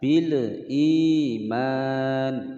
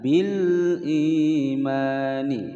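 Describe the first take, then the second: First: The l sound is bounced with an echo. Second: The l sound is clear with no echo. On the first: The speaker calls it wrong. "Itu salah ya, keliru" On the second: The speaker calls it right. "Yang betul adalah bil imani. Bil dibaca dengan jelas"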